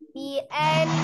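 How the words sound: The n is held with sound through the nose. The speaker calls it right. "suaranya masukkan ke rongga hidung"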